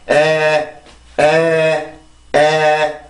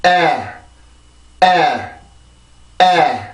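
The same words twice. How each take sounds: First: 에 said slowly and level, with no stress or rhythm; flat unstressed Korean-style 에. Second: 에 with a tensed push and a clear beat; stressed rhythmic 에. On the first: Teacher showing 에 without English rhythm, flat and slow. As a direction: drone 에 evenly, like Korean with no beat. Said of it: "리듬이 없다면". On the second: Teacher modelling 에 with English stress and rhythm. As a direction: give 에 a stressed lift each time. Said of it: "자, 다시 해볼게요". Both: Shown as a demonstration.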